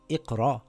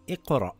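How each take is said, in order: First: The word ends on an open vowel, no glottal stop. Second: The word ends with a short glottal stop. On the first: The speaker calls it wrong. "So it's not Iqra" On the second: The speaker calls it right. "You have to pronounce the Hamza with a sukoon"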